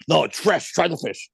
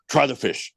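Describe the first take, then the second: First: Higher mock command, no room to refuse; imitating Capello ordering him to eat the fish; not a question, an order. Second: A mock order, pitched higher, mild; imitating Capello insisting lightly; light impression of a blunt coach telling you to eat; retold command. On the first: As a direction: impress the blunt insistence of the coach, lightly voiced. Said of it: "it wasn't like a question". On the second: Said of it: "the way he said it, it wasn't like a question".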